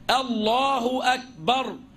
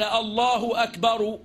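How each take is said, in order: First: The final r is silent with no vowel. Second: The final r is followed by a short vowel. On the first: "يعني يسكنها" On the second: "ولو لم يجزم الراء من أكبر لم يضر"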